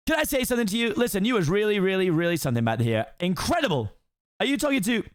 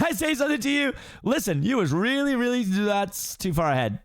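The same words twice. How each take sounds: First: High fast-talking donkey voice; excited Donkey. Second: High chatty donkey voice, cut off; excited Donkey. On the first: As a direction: gush admiringly at the ogre. Second take, correct line. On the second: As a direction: gush at the ogre, then stop short. First take, skipped ahead. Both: Acted.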